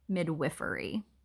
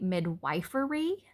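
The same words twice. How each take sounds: First: The middle syllable sounds like 'wiff'. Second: The middle syllable sounds like 'wife'. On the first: This is the accepted pronunciation. The speaker calls it right. "the way you are supposed to pronounce it is midwifery" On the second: This is how the speaker feels it should sound. The speaker calls it wrong. "I feel like it should be midwifery"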